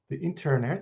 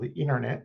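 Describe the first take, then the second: First: It is said with a non-American pronunciation. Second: It is said with an American pronunciation.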